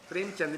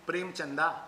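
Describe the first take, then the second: First: The name ends on the final consonant. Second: The name ends with an added final vowel. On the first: The speaker calls it right. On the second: The speaker calls it wrong.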